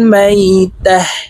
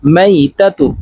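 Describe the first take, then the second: First: The word ends with a silent 'h' sound. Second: The word ends with a 'tu' sound. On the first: The reading stops on this word. "ওয়াকফের ক্ষেত্রে হার উচ্চারণ করব এবং হাকে সাকিন করে ফেলবো" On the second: The reading continues without stopping. "তা পেশতু মাইতাতু"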